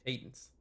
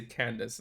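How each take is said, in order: First: Said in the usual way. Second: "Candace" with an n after the first vowel; misread name. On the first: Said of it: "not that one". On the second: Real, not acted. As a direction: say "Candace" by mistake. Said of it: "I was say Candace".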